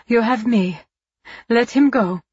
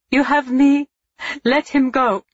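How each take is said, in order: First: Higher, louder desperate plea; cried out. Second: High, loud pleading through tears; tearful cry. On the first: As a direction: beg him loudly to stop. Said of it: "Eva cried". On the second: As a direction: beg with tears starting, louder. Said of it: "she repeated, tears beginning". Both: Acted.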